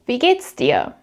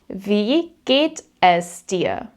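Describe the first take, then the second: First: Es is reduced to an s on the verb. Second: Es is said as a separate full word.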